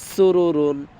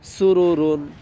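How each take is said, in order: The two takes are said the same way.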